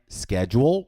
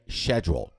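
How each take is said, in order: First: It is said with an American accent. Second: It is said with a British accent.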